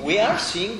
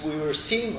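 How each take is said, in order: First: "are" punched higher in pitch; stress on ARE. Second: Said in the usual way. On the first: Real, not acted. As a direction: correct yourself by hitting the word "are". Corrects tense from past to present.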